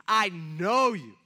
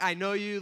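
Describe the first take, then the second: First: "I know you" slow and loud, leaning on "know"; intense I know you. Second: Said in the usual way. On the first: Shown as a demonstration. Preacher stressing God's words to the church, slow and loud. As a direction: let "know" land slow and heavy. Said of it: "a lot more of an intense word". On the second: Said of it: "This isn't like".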